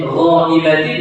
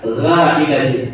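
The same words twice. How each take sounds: First: The consonant is said thick and heavy. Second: The consonant is said thin and light. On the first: The speaker calls it right. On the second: The speaker calls it wrong.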